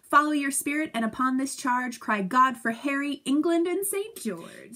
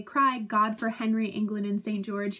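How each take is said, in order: First: Higher and louder battle cry, stretching England; rallying cry. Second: Said in the usual way. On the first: Shown as a demonstration. Teacher quoting Henry's battle cry, rousing. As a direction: call the army to charge. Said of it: "It goes like this". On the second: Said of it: "when they say".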